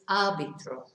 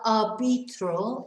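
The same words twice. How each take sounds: First: The stress falls on the first syllable. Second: The stress falls on a later syllable. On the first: The speaker calls it right. "because of the stress on the A" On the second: The speaker calls it wrong. "it's not arbitro"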